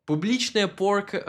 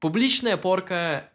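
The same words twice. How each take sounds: First: Публичная порка with English accent and vowels; Публичная порка said like an English speaker; English-accented Russian. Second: Публичная порка in proper Russian pronunciation; native Russian. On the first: Telling viewers the Russian term, English-accented. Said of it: "was gonna say it with the English accent". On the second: Correcting himself to say the Russian term natively. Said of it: "was gonna say it with the English accent, sorry". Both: Shown as a demonstration.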